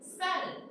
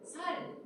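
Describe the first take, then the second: First: The initial s sound is tense. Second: The initial s sound is plain and lax. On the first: "쌀, 이게 경상도 사람들이 안 되지" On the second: "살 이렇게 얘기하잖아"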